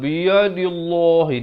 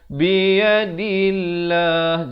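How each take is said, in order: First: The L sound is heavy and thick. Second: The L sound is light and thin. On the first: The speaker calls it wrong. "Jangan biyadillah. Di sini kenapa baca tebal salah lah ya" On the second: The speaker calls it right. "Di sini kita baca biyadillah"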